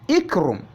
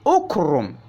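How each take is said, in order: First: The word begins with an i vowel. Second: The word begins with a u vowel. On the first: The speaker calls it wrong. "not ikrum" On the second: The speaker calls it right. "read your alif al-wasl with dhamma"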